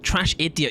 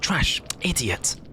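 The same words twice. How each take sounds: First: The two words run together without a pause. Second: There is a pause between the two words.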